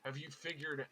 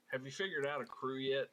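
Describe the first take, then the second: First: Said in the usual way. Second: Put-on Southern accent. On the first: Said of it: "I forgot I was doing the Southern accent". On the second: Abel asking Alabaster about a crew, Southern accent. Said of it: "so I had to slip back into it".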